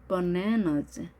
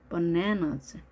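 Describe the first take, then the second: No difference in how they are said.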